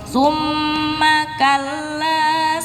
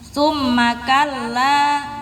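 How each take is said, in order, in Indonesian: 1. Bunyi m ditahan dua ketukan. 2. Bunyi m pendek, tidak ditahan. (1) "mim tasydidnya dipanjangkan" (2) "Bukan dibaca"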